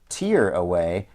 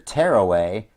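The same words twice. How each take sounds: First: Tear rhymes with ear, as in crying. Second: Tear rhymes with air, as in ripping. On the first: Tears are taken away. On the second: Something is ripped apart.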